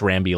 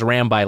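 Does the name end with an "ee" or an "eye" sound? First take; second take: ee; eye. First: The name ends with an "ee" sound. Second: The name ends with an "eye" sound. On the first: "Rambi like Bambi" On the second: "Rambi like Rabbi"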